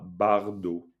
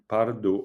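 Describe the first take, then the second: First: The word begins with a b sound. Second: The word begins with a p sound. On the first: The speaker calls it wrong. "on dit pas bardo" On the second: The speaker calls it right. "on dit pardo"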